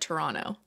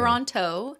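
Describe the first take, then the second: First: The final T sound is left out. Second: The final T sound is clearly pronounced. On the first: "where I take out the last T" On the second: "is how I would normally say it"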